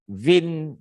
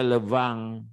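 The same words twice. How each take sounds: First: "vin" read as spelt, with a clear n; "vin" rhyming with English "bin"; spelling pronunciation. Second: "levang" as French le vin, nasal ending; "levang" with the French nasal vowel for vin; French pronunciation. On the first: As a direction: say "vin" letter for letter, higher. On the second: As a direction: say "levang" as luh-vang. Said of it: "bacanya levang". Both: Shown as a demonstration.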